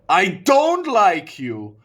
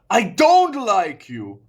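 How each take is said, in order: First: The word don't is stressed. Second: The word don't is stressed.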